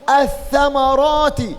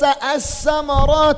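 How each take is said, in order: First: The first consonant is a th sound. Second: The first consonant is not a th sound. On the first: The speaker calls it right. "قل الثمرات" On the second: The speaker calls it wrong. "ليس الثمرات لده كلوار tidak ada lidah dalam"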